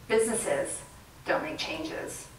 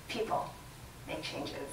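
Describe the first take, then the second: First: Slow and hushed on "don't make changes"; slow emphasis. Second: Very soft, stressing "People"; soft emphasis. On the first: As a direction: let "don't" land slowly. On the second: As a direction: drop to a hush on "People make changes". Contrast line, soft. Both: Real, not acted.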